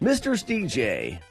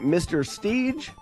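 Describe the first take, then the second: First: The name is said as two syllables. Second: The name is said as one syllable. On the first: The speaker calls it right. "Steve J, kind of like D J" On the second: The speaker calls it wrong. "I think I said that right"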